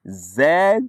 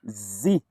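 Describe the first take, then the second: First: The letter is said the British way. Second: The letter is said the American way. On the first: "Z for British sound" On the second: "With American sound, American pronunciation"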